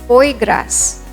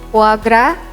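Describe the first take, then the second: First: The final S of gras is pronounced. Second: The final S of gras is silent. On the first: The speaker calls it wrong. "they would probably pronounce this as foie gras" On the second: The speaker calls it right. "You have to pronounce it as foie gras with S being silent"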